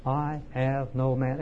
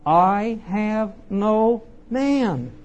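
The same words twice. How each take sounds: First: "I have no man" slow and even, at a lower level; measured restatement. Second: "I have no man" drawn out very slowly, higher and louder; "I have no man" as a slow, raised declaration; emphatic. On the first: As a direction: spell out "I have no man" word by word, restrained. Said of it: "note the word have". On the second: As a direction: lean hard on each word of "I have no man". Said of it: "he's very emphatic about this". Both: Acted.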